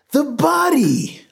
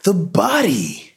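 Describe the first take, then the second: First: Very high, drawn-out hysterical cry; screaming. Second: High, drawn-out frantic cry; shouting. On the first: Desperate man to the gathering crowd, screaming. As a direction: scream it, pitch at the top. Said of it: "Lois screamed". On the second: Shaken man to neighbors about the body, shouting. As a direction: shout it in panic, high and slow. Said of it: "Ed shouted". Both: A narrator's reading.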